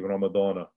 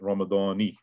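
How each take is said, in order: First: The word ends with a short 'a' vowel. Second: The word ends with a short 'i' vowel. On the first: The speaker calls it right. "it becomes fi Ramadana" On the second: The speaker calls it wrong. "It would be incorrect to make it Ramadani"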